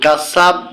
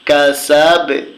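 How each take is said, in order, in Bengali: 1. শেষের b কোনো ঝাঁকুনি ছাড়াই সোজাসুজি থেমে যায়। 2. শেষের b প্রতিধ্বনিময় ঝাঁকুনি দিয়ে ছাড়া হয়। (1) "কাসাব বললে হবে না" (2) "কাসাবে এরকম বলতে হবে"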